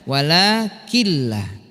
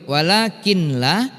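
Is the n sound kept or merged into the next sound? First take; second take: merged; kept. First: The n merges into a doubled l sound. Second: The n sound is pronounced before the l. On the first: "kita hilangkan nunnya menjadi lamnya yang bertasdid" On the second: "tulisannya tadi yang ada nunnya"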